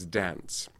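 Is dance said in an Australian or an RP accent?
Australian. The word is said in an Australian accent. "Australian speakers ... would do as dance"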